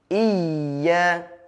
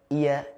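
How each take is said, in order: First: The y sound is doubled and pressed. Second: The y sound is single, without pressure. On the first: The speaker calls it right. "I tekan dulu baru masuk ke iya" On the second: The speaker calls it wrong. "seperti tidak ada tasydidnya"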